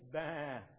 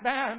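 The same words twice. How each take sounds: First: The bleat sounds calm and content. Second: The bleat sounds frightened and urgent. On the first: The sheep is happy. "If he's happy and content" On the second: The sheep is in danger. "If he's frightened"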